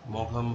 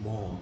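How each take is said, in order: First: A hard g sound is heard mid-word. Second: No g sound is heard mid-word. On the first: The speaker calls it wrong. "অনেকে ভুল উচ্চারণ করে" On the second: The speaker calls it right. "আসল উচ্চারণটা হচ্ছে মম"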